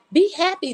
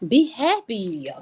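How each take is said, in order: First: BE HAPPY lifted much higher; emphatic urging. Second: Said in the usual way. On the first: Real, not acted. Streamer urging viewers, BE HAPPY pitched high. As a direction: urge it again in a raised pitch, "be happy".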